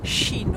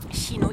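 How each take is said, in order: First: It begins with a sh sound. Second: It begins with a soft ich-like hissing sound. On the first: This is how young people say it. "ils disent chino" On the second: This is the traditional pronunciation. "le son ch, ch qui est comme la- le ich allemand"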